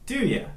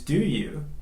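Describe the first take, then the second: First: The word 'you' is reduced to 'ya'. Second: The word 'you' is said in full. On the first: "to do ya" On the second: "we reduce do you"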